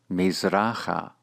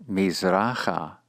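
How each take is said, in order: Both takes have the same delivery.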